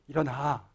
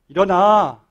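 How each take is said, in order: First: It is said in a calm, normal voice. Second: It is said noticeably louder and higher.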